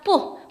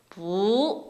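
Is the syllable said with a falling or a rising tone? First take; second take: falling; rising. First: The syllable is said with a strong falling tone. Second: The syllable is said with a softer rising tone. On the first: "그때마다 뿌! 뿌! 하려니까 힘들잖아요" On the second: "양보를 해주는 거예요. ... 이성으로 바꿔서 발음을 합니다"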